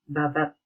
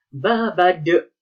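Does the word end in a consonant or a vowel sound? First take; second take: consonant; vowel. First: The word ends in a clipped t sound. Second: The word ends with an added de syllable. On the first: The speaker calls it right. "ini kita membacanya babat" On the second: The speaker calls it wrong. "Tidak boleh dibaca babade"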